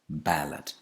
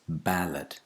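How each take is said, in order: First: The stress is on the first syllable. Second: The same.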